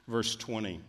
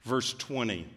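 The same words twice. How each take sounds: The two takes are said the same way.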